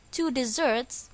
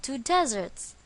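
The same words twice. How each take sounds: First: "desserts" with the stress on its second syllable, di-ZERTS. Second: "deserts" with the stress on its first syllable, DEZ-erts. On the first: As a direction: lean on the end of "desserts", di-ZERTS. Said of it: "the stress is on the second syllable". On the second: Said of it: "The stress is on the first syllable". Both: Shown as a demonstration.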